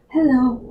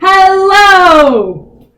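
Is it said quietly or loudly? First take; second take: quietly; loudly. First: It is said very quietly. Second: It is said very loudly.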